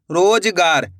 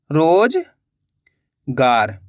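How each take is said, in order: First: Said in the usual way. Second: Drawn-out word. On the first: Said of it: "teacher says word before spelling". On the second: Shown as a demonstration. Teacher to pupils, stretching रोजगार slowly. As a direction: stretch रोजगार very slowly, every sound held long. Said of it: "रो का उच्चारण निकल रहा है".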